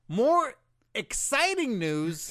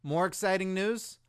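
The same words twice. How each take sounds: First: Slow, loud, high hype voice; hyped-up announcer. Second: Said in the usual way. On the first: Pretend. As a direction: oversell the excitement. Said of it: "Get your hand out of my face".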